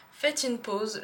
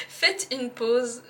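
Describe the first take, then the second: First: Said in the usual way. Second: Laughing. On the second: Real, not acted. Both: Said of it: "Oh là là".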